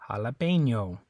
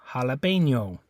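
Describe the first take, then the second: Both takes have the same delivery.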